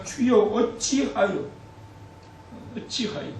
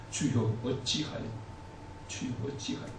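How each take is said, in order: First: Very slow, drawn-out lament; 길게 늘이며 한탄하듯. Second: 낮게 속삭이듯 탄식하며. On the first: (코로나 사태를 보며 하나님께, 느린 탄식) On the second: (괴로운 성도가 하나님께, 속삭이는 탄식) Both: Acted. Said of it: "이런 탄식이 나오지 않습니까".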